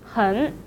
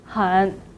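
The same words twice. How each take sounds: First: It is said with the rising second tone. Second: It is said with the dipping third tone. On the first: "should be changed to the second tone" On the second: "很 should be pronounced as 很"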